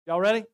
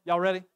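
The two takes are said the same way.

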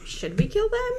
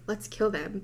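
First: Tentative question rising high at the end of "Should we kill them?"; casual suggestion. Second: Said in the usual way. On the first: Retold or imitated. Alien weighing an option with the others, tentative high-rising question on "Should we kill them?". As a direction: float "Should we kill them?" as an option, pitch climbing steeply. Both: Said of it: "more like an option than, like, a malicious".

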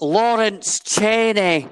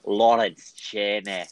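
First: Loud, high, drawn-out Scottish accent; big Scottish announcement, stretched out and raised; proper Scottish accent. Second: Poor attempt at a Scottish accent; unconvincing Scottish accent; bad Scottish accent. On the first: Shown as a demonstration. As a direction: proclaim it slowly in full Scottish. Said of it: "Let me retake that for you". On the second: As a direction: try a Scottish accent and not quite manage it. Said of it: "That was my best Scottish accent".

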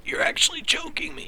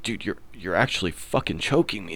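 First: Choked, squeezed high and breathless under a grip on the throat; strangled whisper. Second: Said in the usual way. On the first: Retold or imitated. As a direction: rasp it out as if a hand is on your neck. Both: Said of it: "But it was more like".

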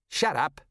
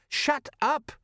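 First: A touch higher, mild telling-off; mildly testy. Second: Very high-pitched, panicky acted protest; frantic. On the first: Acted. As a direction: hush them with mild irritation. Nervous sergeant silencing his taunting companion. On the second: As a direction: silence them in a strained, squeaky-high voice. Nervous sergeant's repeated plea, now frantic.

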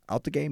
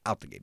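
First: Disbelieving rise on Out the game?, pitched up high; mock shock, asking Out the game? back in a high voice; imitating Stephen A doubting the claim; incredulous question. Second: Out the game. said low and flat, with a falling end; a dry, certain restatement of Out the game; imitating LeVar Ball calmly doubling down; flat firm repeat. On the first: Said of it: "Stephen A is like". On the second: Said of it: "He's like".

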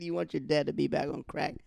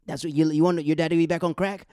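First: Said in the usual way. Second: Angry yell. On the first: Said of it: "He said". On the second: Retold or imitated. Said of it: "he cursed out his son".

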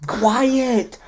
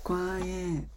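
First: High, piercing mock order; pouty bossy kid. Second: Hushed, high-pitched call; quiet sign. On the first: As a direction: whine it out with a pout. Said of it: "have that pouty looking face". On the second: Retold or imitated. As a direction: softly imitate a call for quiet. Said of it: "Quiet sign?".

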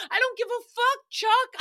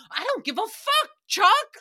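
First: The rhyme cracking up as she says it; high giggly mock yell; laughing through it. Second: Higher, louder mock fight line, punching Chuck; hammed-up shout with a big loud finish on Chuck; mock argument yell. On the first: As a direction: try to yell it but break into giggles. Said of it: "I could not say that with a straight face". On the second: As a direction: snap it at your boyfriend like a rhyme mid-fight. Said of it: "I'm just like".

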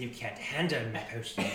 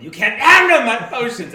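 First: A hint of a gruff old merchant; lightly voiced proud potion seller; gruff proud merchant pitch. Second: Put-on yelling old merchant, much higher; gruff proud merchant pitch. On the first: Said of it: "you hear him say". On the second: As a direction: bellow it at the customer, high and loud. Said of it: "old man is too busy harassing".

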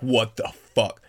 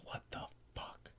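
First: Loud, slow, voiced disbelief; aghast and emphatic; shocked exclamation. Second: Barely audible, slow whisper; stunned, secret whisper to a companion; mouthed whisper. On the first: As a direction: say it out loud, stunned, stretching each word. Stunned reaction to changed voice. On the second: Acted. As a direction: mouth it with almost no voice. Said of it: "looks back at me and mouths".

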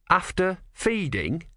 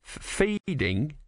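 First: Slow, high leading question; meaningful, higher-pitched query; pointed suggestion. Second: Slow, higher, faltering question; stammered echo. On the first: Acted. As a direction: prompt with a drawn-out hint. Prompting hint. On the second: A narrator's reading. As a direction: stumble on the F, then draw out FEEDING. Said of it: "he repeated".

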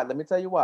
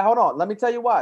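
First: Said in the usual way. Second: Louder and higher, demanding to be heard; raised insistent voice. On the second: Real, not acted. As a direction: push over the others to keep talking. Insisting on the floor in argument.

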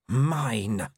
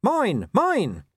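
First: Lightly voiced wolf claiming her own, growling. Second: High, louder little dog bark of words; small dog defending his master, barking high. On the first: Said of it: "growled the wolf". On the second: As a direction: yap it out defiantly. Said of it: "He barked". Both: A narrator's reading.

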